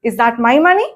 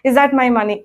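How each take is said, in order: First: The question is said with lively question intonation. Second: The question is said with flat pitch. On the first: The speaker calls it right. "Look at my intonation" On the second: The speaker calls it wrong. "కాదు"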